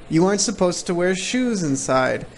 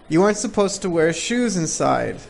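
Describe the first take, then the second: Both takes have the same delivery.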